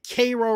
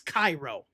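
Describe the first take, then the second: First: It is said the local Southern way. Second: It is said the standard international way. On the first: This is how people there name the town. The speaker calls it wrong. "they call it Cairo" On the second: This is how the speaker thinks it should be named. The speaker calls it right. "It's Cairo"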